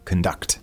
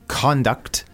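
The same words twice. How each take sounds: First: The stress is on the second syllable. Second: The stress is on the first syllable. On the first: It is the verb, as in leading an orchestra. The speaker calls it wrong. "not conduct" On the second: It is the noun meaning behavior. The speaker calls it right. "It's conduct"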